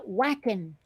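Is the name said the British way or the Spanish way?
British. The name is said with British pronunciation. The speaker calls it wrong. "British folks, it comes out whackin'"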